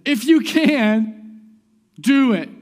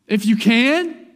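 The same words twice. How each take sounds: First: Loud, high, drawn-out mimicry of a father pleading; imitated plea. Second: Loud, high, slow echo rising on "can"; incredulous question. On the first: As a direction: call it out slowly, ending firmly on "do it". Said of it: "the guy's literally just said". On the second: Retold or imitated. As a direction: throw it back as a challenging question. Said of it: "Jesus is like".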